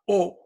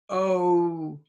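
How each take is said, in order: First: The vowel stays steady without any glide. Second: The vowel glides, moving toward another sound. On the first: The speaker calls it wrong. "It's not O. I know in Japanese you say O" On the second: The speaker calls it right. "Now that O is a moving sound"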